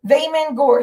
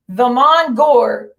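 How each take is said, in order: First: Vamon Gore said quicker, as VAY-mang Gore; retry Vamon Gore at normal pace; second name attempt. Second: Vamon Gore said slowly, syllable by syllable; slow name attempt. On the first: Streamer retrying the viewer's name Vamon Gore at normal speed. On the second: Streamer slowly sounding out a viewer's name, Vamon Gore. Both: Real, not acted. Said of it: "however the fuck you say your name".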